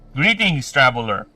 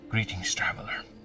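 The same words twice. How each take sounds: First: It is said in the speaker's normal voice. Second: It is said in a put-on character voice.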